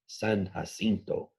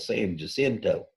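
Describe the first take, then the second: First: The name is said with a Spanish pronunciation. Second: The name is said with an Anglo-American pronunciation. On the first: "I think, correct Spanish pronunciation, the best I can do" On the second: "saying it more Anglo American style"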